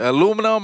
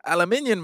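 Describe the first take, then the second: First: Said in the usual way. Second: "aluminium" said al-uh-MIN-yun; British-style aluminium. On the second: Shown as a demonstration. Friend showing what some people call tin foil, "aluminium" as al-uh-MIN-yun. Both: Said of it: "That's what they call it".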